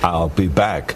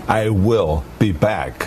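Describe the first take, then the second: First: I will is contracted to one syllable. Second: I will is said as two full words. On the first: "I wrote the line, I'll be back" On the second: "maybe I should just say, I will be back. As it sounds more like a machine"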